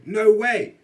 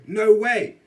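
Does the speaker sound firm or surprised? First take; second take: surprised; surprised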